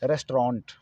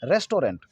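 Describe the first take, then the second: First: "रेस्टोरेंट" as res-traant, no o after the t; lower, squeeze "रेस्टोरेंट" into two syllables, res-traant; correct restaurant. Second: "रेस्टोरेंट" as res-to-rent, three syllables; common mispronounced restaurant. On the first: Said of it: "इसका सही उच्चारण होना चाहिए". ("रेस्टोरेंट" का सही उच्चारण, रेस-ट्रांट) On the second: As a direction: say "रेस्टोरेंट" with a full to and final rent. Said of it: "इसका उच्चारण क्या करते हैं अक्सर". ("रेस्टोरेंट" का आम गलत उच्चारण, रेस-टो-रेंट) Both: Shown as a demonstration.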